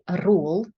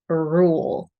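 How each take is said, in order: First: The R sound is made with the tongue tip. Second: The R uses rounded lips and the tongue held back. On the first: The speaker calls it wrong. "Nothing in the tip of the tongue. So we don't want to say rule" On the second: The speaker calls it right. "So rule, rule"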